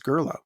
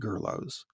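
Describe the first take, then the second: First: The name ends without any s sound. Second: The name ends with a pronounced s sound. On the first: It is treated as a French name. The speaker calls it right. "it's not Greek, it's French... I guess I'm just going to have to go with the official pronunciation here" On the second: It is treated as a Greek name. The speaker calls it wrong. "I've always pronounced it like Socrates. Most English speakers, I suspect, pronounce it Gerlos"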